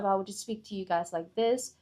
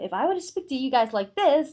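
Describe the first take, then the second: First: The voice is flat with little pitch movement. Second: The voice is lively with varied pitch. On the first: The speech is dull and unengaging. The speaker calls it wrong. "it is very monotonic" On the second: The speech grabs the listeners' attention. The speaker calls it right. "now everyone is suddenly engaged"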